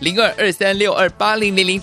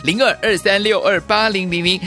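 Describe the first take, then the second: The two takes are said the same way.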